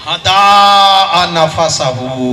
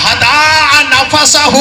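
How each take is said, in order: First: हदा नफसहू stretched slowly at normal pitch; slow recitation. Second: हदा नफसहू drawn out very slowly, high and loud; हदा नफसहू called out, each syllable stretched. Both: Shown as a demonstration. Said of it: "क्या कहा?".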